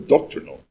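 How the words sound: It is said with an American pronunciation. "here in the States you say"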